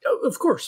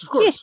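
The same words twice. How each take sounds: First: A touch higher, eager to help; eager reassurance. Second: Said in the usual way. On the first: Acted. Detective reassures the injured client, a touch eager. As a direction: quickly reassure the hurt client.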